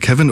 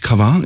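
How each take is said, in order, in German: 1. Der Name wird ohne französische Aussprache gesprochen. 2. Der Name wird mit französischer Aussprache gesprochen.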